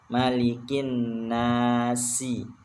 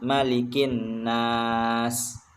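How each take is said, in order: First: The final sin is read with its vowel. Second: The final sin is read without a vowel. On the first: This is the full written reading. "Sebenarnya yang tertulis" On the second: The reciter stops at this point. "kalau diwakafkan ... dihilangkan harokat sinnya"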